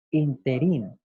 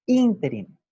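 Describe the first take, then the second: First: Interín with the stress on the last syllable, in-te-RÍN; wrong stress interín. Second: Interín stressed on the first syllable, ÍN-te-rin, said higher and louder; correct stress ínterin. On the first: Teacher repeats the wrong form to the class, stressed at the end. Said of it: "escribir o decir interín". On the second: Teacher models the correct stress for students. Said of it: "lo correcto es pronunciar o escribir interín". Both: Shown as a demonstration.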